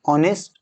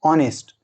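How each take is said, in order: First: The word begins with a vowel sound. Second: The same.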